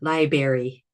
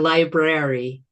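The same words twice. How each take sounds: First: The first R sound is left out. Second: The first R sound is clearly said. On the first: The speaker calls it wrong. "mispronounced by some people" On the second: The speaker calls it right. "It has an R in it"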